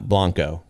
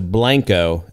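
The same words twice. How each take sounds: First: The name is said with a Spanish-style pronunciation. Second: The name is said with a local Texan pronunciation. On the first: This is not how the town's name is said locally. The speaker calls it wrong. "and not Blanco" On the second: This is how the town's name is said locally. The speaker calls it right. "we'd be going up to Blanco"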